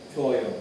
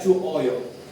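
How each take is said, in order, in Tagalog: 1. Ang U at O ay nagsasama at nagiging isang glide na "wo". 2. Ang U at O ay binibigkas bilang dalawang magkahiwalay na pantig. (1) "Wo po yan" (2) "Hindi siya chuoyo"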